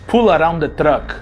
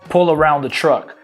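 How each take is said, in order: First: The R in 'around' is dropped. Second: The R in 'around' is clearly pronounced. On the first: "Ele fala assim" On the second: "ele não fala com esse sotaque americanizado"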